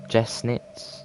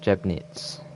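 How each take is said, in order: First: The middle consonant is said as an S. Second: The middle consonant is said as a B.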